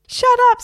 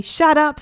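First: Extremely high, loud parrot squawk; mock him with a piercing echo; Harry. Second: Put-on louder, higher, exasperated boy; Egbert. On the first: Parrot mimicking boy, very high squawk. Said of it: "said Harry". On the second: Boy to mimicking parrot, raised exasperated voice. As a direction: snap it back, pitch raised. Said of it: "said Egbert".

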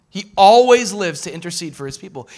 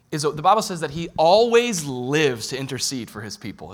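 First: Louder, stressed "always"; emphatic repeat. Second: Said in the usual way. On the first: Real, not acted. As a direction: proclaim it with fervor.

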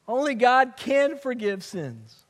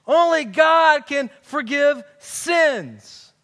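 First: Said in the usual way. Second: Slow, loud "Only God can forgive sins" in mock outrage; indignant. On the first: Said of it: "they were right". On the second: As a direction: drag it out like an offended scribe. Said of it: "they're ticked off".

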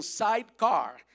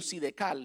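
First: Sidecar in English, "saitkar", long i. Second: Sidecar as "sidekal", Spanish vowels, L at the end; Spanish-style sidecar. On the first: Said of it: "aprendí que es un sidecar". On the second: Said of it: "como algunos dicen". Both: Shown as a demonstration.

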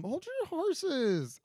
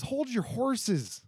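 First: Very high, very slow "Hold your horses"; high slow singsong. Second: Drawn-out. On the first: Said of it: "'Cause hold your horses". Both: Shown as a demonstration.

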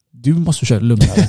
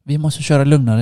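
First: "du" set apart and emphasised as a retort; retold comeback with "du" stressed. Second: Said in the usual way. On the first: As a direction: throw it back, leaning on "du". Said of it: "Jag tänkte bara". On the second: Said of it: "han sa så dumma saker".

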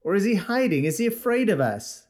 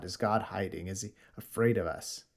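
First: Raised, taunting questions; mocking questions. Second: Softer, lower, reflective repeat; preacher quietly repeating the mockers' question; quiet restatement. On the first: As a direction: jeer at the madman from the crowd. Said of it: "asked another". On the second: Real, not acted. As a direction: turn the taunt into a sober question. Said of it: "They're talking about God".

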